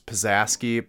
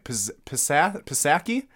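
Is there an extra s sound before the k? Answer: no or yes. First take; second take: yes; no. First: An extra s sound comes before the k. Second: No extra s sound comes before the k. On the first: The speaker calls it wrong. "I pronounced that one wrong" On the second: The speaker calls it right. "it's definitely Pisaki"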